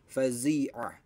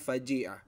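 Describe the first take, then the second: First: The middle consonant is a z sound. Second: The middle consonant is a j sound. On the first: The speaker calls it right. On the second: The speaker calls it wrong.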